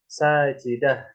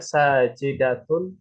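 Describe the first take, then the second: First: The word ends with a soft h sound. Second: The word ends with a t sound and -un. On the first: The reader stops after the word. "ketika berhenti sajidah" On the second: The word is read without stopping after it. "yang tadinya sajidatun"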